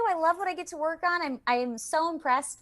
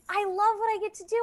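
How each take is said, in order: First: High, quick and eager; excited gush. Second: High, fast, bubbling over with love for the work; excited gush. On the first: Voice actor tells host she loves her work, quick and high. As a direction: rush it out, still beaming. Gushing about her job. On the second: Voice actor gushing to host about her job, high and fast. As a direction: let the joy spill out quickly. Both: Real, not acted.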